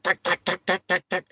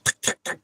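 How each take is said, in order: First: High-pitched tack tack clicks; voiced higher mock ticking; imitated ticking noise. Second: Whispered tick-tack clicks; voiceless mimicked vibration clicks; imitated ticking noise. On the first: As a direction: tap out the clicks up high, mimicking the vibration. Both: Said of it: "making tiki noises".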